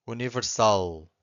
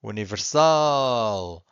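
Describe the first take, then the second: First: Said in the usual way. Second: "Universal" with a long, loud "sal"; stress on final syllable. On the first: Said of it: "I'm gonna say it again". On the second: Shown as a demonstration. Teacher showing the exception for final L, stretched "sal" in "Universal". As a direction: draw out and punch the "sal" in "Universal". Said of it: "you have to stress the final syllable".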